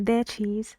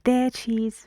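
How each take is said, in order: The two takes are said the same way.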